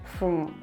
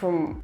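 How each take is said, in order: First: The vowel is reduced to a weak schwa. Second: The vowel is reduced to a weak schwa.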